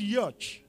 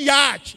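First: It is said with an American English pronunciation. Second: It is said with a Nigerian English pronunciation. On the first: The speaker calls it right. "I'm using the American pronunciation" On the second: The speaker calls it wrong. "You are using the Nigerian pronunciation"

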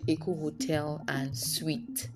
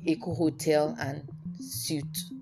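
First: The last word sounds like 'sweet'. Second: The last word sounds like 'soot'. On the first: The speaker calls it right. "It's called" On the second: The speaker calls it wrong. "It's not a suit"

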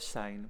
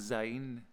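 First: The word begins with an s sound. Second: The word begins with a z sound. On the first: The speaker calls it right. "which is correct" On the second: The speaker calls it wrong. "that's incorrect"

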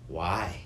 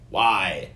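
First: It sounds full of wonder and awe. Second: It sounds accusing and challenging.

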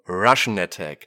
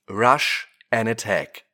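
First: Rush and and merge into one word, Russian. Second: Rush and and are said as separate words. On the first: An attack by Russia. "Je nach Aussprache variiert die Bedeutung allerdings" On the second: Charging and attacking. "Je nach Aussprache variiert die Bedeutung allerdings"

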